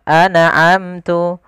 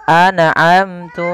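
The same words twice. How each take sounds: Both takes have the same delivery.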